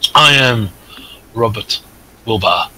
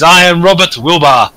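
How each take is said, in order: First: It is said quietly. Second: It is said loudly.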